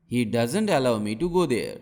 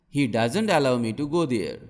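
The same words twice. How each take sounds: The two takes are said the same way.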